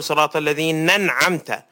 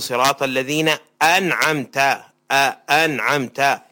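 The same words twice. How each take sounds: First: أنعمت run together with the hamza swallowed; الذين أنعمت slurred as one word, no glottal stop; dropped hamza. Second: أنعمت with a clean glottal stop before the a; clear hamza. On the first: Sheikh imitates an imam who drops the hamza. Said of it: "لا ينطق الهمزة". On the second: Sheikh models the correct careful recitation. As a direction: separate الذين and أنعمت with a crisp hamza. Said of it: "يوضح الأحرف". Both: Shown as a demonstration.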